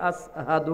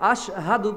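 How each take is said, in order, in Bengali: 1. শব্দটি 's' ধ্বনি দিয়ে বলা হয়। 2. শব্দটি 'sh' ধ্বনি দিয়ে বলা হয়। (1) "সিনের জায়গায় সিন হয়, আসহাদু হয়" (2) "আশহাদু বলতে পারে না"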